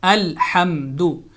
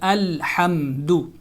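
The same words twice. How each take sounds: Both takes have the same delivery.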